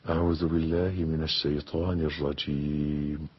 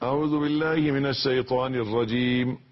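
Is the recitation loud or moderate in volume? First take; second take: moderate; loud. First: It is recited at a moderate, audible volume. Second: It is recited in a loud, raised voice. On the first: The speaker calls it right. "ما بين السر والجهر" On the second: The speaker calls it wrong. "لا مش كده"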